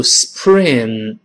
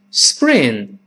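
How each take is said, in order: First: Spring with a puffed, aspirated P; wrong spring. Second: Spring with P voiced like B; correct spring. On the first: Teacher shows what to avoid, mispronounced spring. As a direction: say spring slowly as 's-pring', hard P. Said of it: "不要读spring". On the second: Teacher models spring for learners, voiced-p pronunciation. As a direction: say spring as 'sbring', unpuffed P. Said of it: "变成声带震动的b". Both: Shown as a demonstration.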